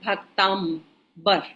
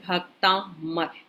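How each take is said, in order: First: The middle is said with an 'mb' sound. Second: The middle is said with a plain 'm' sound. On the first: The speaker calls it wrong. "हम कई बार बोलते हैं भक्तांबर" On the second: The speaker calls it right. "इसका pronunciation है भक्तामर"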